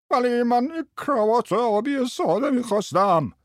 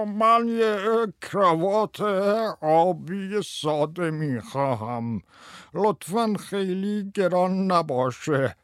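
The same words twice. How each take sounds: First: Very high, put-on customer whine; squeaky screechy voice. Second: High, slow, quavering customer; loud quavering voice. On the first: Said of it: "با صدای جیغ جیغو گفت". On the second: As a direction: draw it out in a high, trembling put-on voice. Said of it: "با صدای لرزان بلندی گفت". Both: A narrator's reading.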